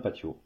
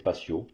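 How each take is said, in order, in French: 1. La consonne du milieu fait un son t. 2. La consonne du milieu fait un son s. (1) "Le T se prononce T en espagnol" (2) "en français, on va systématiquement prononcer patio"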